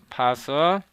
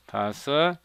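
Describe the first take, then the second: No difference in how they are said.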